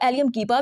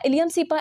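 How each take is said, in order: First: The word cepa begins with a K sound. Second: The word cepa begins with an S sound. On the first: "आप इसको एलियम कीपा भी बोल सकते हैं, गलत नहीं होगा" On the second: "but I prefer कि आप इसको एलियम सीपा ही बोलिएगा"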